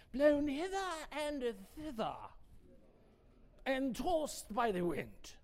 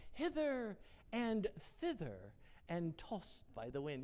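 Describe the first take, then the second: First: English accent. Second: Said in the usual way. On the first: Shown as a demonstration. Preacher rereading the verse to the congregation in an English accent. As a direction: read it like a stately English recitation. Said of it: "say that with an English accent".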